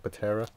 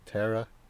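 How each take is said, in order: First: The word starts with a P sound. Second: The word starts with a T sound. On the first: The speaker calls it wrong. "You don't say Patera" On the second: The speaker calls it right. "the P is silent, like pterodactyl"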